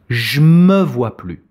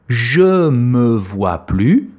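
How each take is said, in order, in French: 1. La voyelle de je est supprimée. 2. La voyelle de je est entièrement prononcée.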